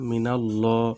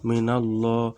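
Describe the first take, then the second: First: The l sound is heavy and thick. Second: The same.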